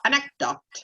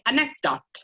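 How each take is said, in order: First: The middle C sound is held back unreleased. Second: The same.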